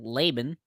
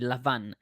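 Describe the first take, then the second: First: The name is said the English way, with b. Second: The name is said the Hebrew way, with v. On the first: "our pronunciation" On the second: "in modern Hebrew, at least, it's Lavan"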